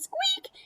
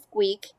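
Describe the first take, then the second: First: Much higher, tiny squeak; little girl's squeak. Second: A touch lower squeak for dad; dad's squeak. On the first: The little girl of the family greeting, a very high squeak. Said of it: "And the little girl says". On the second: The dad of the family greeting, a slightly lower squeak. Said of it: "And Dad says". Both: Acted.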